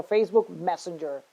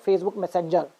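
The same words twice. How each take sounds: First: Messenger as MES-en-jer; stress on first syllable. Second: Messenger as mes-SEN-jer; wrong late stress. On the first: Teacher correcting the mistake, Messenger as MES-en-jer. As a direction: hit MES in Messenger, keep the rest light. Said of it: "No, it's a Facebook Messenger". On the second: Teacher showing the mistake, Messenger as mes-SEN-jer. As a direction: move the weight to SEN in Messenger. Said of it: "It's not, you know". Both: Shown as a demonstration.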